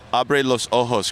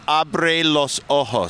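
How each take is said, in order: First: Said in the usual way. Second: "Abre los ojos" said slowly, each word weighted; slow emphatic. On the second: Shown as a demonstration. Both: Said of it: "Open your eyes".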